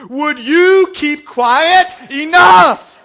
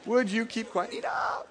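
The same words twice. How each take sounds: First: Slow, loud, higher furious shout; angry shout. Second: Quiet, fading mock shout; softened repeat. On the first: Acted. Fed-up husband finally yells at his wife, angry shout. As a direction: explode at her, spitting each word. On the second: Preacher repeats husband's line to himself, quiet. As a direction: let it trail off.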